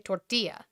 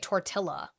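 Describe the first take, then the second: First: The word is pronounced in a Spanish way. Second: The word is pronounced in an English way. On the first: The speaker calls it right. "that's how you fucking say it" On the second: The speaker calls it wrong. "I don't say tortilla, right? Because that's the incorrect way to say that word"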